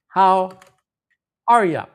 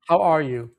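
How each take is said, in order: First: The last word is reduced to 'ya'. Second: The last word is a full 'you'. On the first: This is the everyday casual form. The speaker calls it right. "we say, how are ya? This is really typical, typical pronunciation" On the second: This is the textbook form. The speaker calls it wrong. "you probably learned, how are you? We don't say that"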